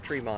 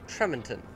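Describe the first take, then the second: First: The name is clipped, ending like Tremont. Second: Every syllable of the name is pronounced as written. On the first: This is how locals say the name. "for some reason we say it Tremont" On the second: This is how an outsider reads the name. "you would read it Tremonton because it is spelled Tremonton"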